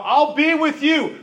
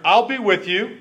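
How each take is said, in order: First: Higher, slow, reassuring; God gently pressing a doubting man. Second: Said in the usual way. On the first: Acted. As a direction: lift it up and slow it down like a patient God. Preacher voices God reassuring Gideon.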